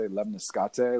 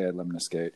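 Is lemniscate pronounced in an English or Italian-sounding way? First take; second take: Italian; English. First: The word is pronounced with an Italian-sounding flavor. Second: The word is pronounced in a plain English way. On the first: "like they're saying it like it's Italian or something" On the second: "I think English we say lemniscate"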